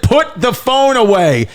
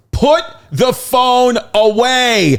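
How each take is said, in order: First: High stern command; a lightly voiced Benson ordering phones away; mock-stern high order; imitating Benson. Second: Put-on high, slow, stern little girl; a child copying a strict command, drawn out high; high slow mock-stern kid voice; daughter's stern order. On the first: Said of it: "Benson said". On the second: Daughter mimicking Benson at concert.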